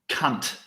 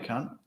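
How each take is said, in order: First: The final T is hard and strongly emphasized. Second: The final T is soft and light. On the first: It is meant with maximum hostility. "you increase the emphasis on the T" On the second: It is meant in a friendly way. "That's a, that's a soft T"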